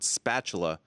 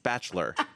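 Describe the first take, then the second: First: The word has three full syllables. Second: The word is squeezed into two syllables. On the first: The speaker calls it right. "the word spatula was not pronounced" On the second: The speaker calls it wrong. "was not pronounced spatchler"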